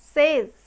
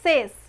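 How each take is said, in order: First: The word ends with a z sound. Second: The word ends with an s sound. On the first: The speaker calls it right. "লাস্টের এসটা হবে z, z এর sound" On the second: The speaker calls it wrong. "It's not says"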